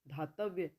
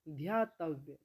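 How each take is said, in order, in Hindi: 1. शब्द 'dha' से शुरू होता है, इसमें 'y' की आवाज़ नहीं है। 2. शब्द 'dhya' से शुरू होता है, इसमें 'y' की आवाज़ है।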